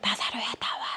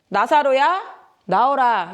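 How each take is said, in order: First: It is said quietly. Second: It is said loudly.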